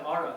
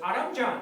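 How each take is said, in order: First: Aram said short and plain, stress on first syllable; correcting the name. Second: Aramjan with the added jan, a bit higher; driver's version. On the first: Correcting the driver, saying his own name simply. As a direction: give just Aram. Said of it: "I said". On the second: Mimicking the driver who says his name fondly. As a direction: stretch Aram into Aramjan, fond and a bit higher. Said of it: "He goes". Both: Retold or imitated.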